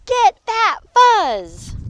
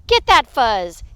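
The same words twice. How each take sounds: First: High, loud, drawn-out order; slow, heated battle cry; escalating command. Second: Loud order at normal pitch; punchy grab-it command; fighting command. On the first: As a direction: stretch each word into a high yell. Fight escalates. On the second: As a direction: give a firm, loud order. Prairie dogs fight over fuzz. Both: Acted.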